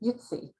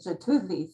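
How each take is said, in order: First: The name begins with a Y sound. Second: The name begins with a J sound.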